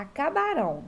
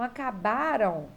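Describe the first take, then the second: First: "acabarão" with the weight on final "rão"; last-syllable stress. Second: "acabaram" with the weight on "ba", ending falling away; penultimate stress. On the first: Teacher turning the verb to future, "acabarão" stressed on the last syllable. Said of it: "vamos jogar pro futuro". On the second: Teacher giving the past form to change, "acabaram" stressed on the penultimate. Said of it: "vai ficar acabarão". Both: Shown as a demonstration.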